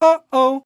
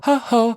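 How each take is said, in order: First: The voice starts firm, with crisp clean onsets. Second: The voice starts breathy, with airy onsets. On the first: The speaker calls it right. "if I can keep it nice and firm" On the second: The speaker calls it wrong. "if I can not go, ... and lose that chord closure"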